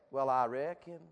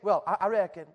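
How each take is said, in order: First: It is said in a strong Southern accent. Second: It is said in a plain, neutral accent. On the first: The speaker calls it right. "You say" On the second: The speaker calls it wrong. "You don't just say"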